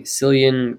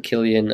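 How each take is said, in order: First: Cillian said with an S sound, SIL-ee-an; soft-C pronunciation. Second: Killian said with a K sound, KIL-ee-an; hard-K pronunciation. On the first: Unsure speaker repeats a name heard, Cillian with soft C. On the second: Unsure speaker offers the other version, Killian with hard K. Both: Shown as a demonstration. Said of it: "I keep he-, hearing".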